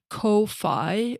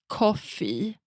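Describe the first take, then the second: First: The word does not sound like 'coffee'. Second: The word sounds like 'coffee'. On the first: The speaker calls it wrong. "I want to pronounce it like Ko-fi" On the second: The speaker calls it right. "you are supposed to pronounce it like coffee"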